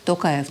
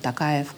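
First: The name is said without a Russian accent. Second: The name is said with a Russian accent. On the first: It shows respect to the people. The speaker calls it right. "нужно говорить уважительно" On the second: It sounds disrespectful to the people. The speaker calls it wrong. "говорите так по-русски с акцентом"

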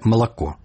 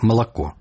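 First: Unstressed vowels are reduced, Russian style. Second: Unstressed vowels are reduced, Russian style.

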